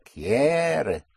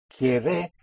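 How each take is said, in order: First: "Quiere" higher, long push on QUIE, falling ending; present tense push. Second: "Quiere" with the push wrongly on the last syllable, rising; mispronounced stress. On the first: Teacher confirms the corrected word, long first-syllable stress. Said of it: "where the present tense push is". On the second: Teacher rejects the student's attempt, wrong final stress. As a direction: say "Quiere" as quie-RE, ending up. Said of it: "you will not be understood". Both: Shown as a demonstration.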